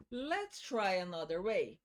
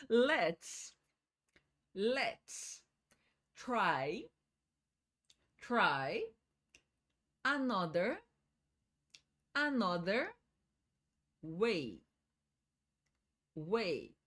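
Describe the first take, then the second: First: Said in the usual way. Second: Each word said slowly, twice, with long pauses. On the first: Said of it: "Em blocos agora". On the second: Shown as a demonstration. Teacher slowing down so students can repeat each word. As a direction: break the phrase apart and repeat every word. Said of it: "Vamos devagar".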